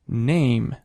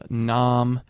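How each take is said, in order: First: The vowel is said one step higher. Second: The vowel is said lower in the mouth. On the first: This is the later pronunciation of the word. "Going up one notch" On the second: This is the older pronunciation of the word. "nam becoming name, a to a"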